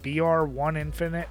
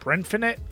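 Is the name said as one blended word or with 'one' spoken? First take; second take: 'one' spoken; blended. First: The name is said with 'one' spoken aloud. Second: The name is blended into one word. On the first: "are they trying to be cute with the one" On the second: "Is it Brinfinite?"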